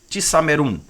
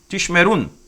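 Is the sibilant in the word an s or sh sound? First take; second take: s; sh. First: The sibilant is a plain s sound. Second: The sibilant is an sh sound. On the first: The dot marks the letter as sin. "você tem o som de S. Então ficaria tissamerun" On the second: The dot marks the letter as shin. "Mas aqui não, aqui vai ficar tishemerun"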